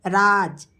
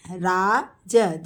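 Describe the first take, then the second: First: Said in the usual way. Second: Teacher spelling out राज slowly; slow drawn-out model. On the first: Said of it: "teacher models name". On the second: Shown as a demonstration. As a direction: stretch each sound of राज slowly. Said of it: "teacher models name slowly".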